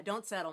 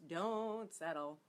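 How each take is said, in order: First: Said in the usual way. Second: Slow, stretched DON'T before "settle"; "Don't" held long, then "settle"; drawn-out emphasis. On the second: Real, not acted. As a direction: draw out the word "Don't" slowly. Advice repeated slowly for emphasis.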